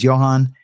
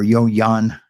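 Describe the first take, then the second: First: The name starts with a J sound. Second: The name starts with a Y sound. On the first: The speaker calls it wrong. "It's spelled like Johan" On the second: The speaker calls it right. "is how you pronounce it"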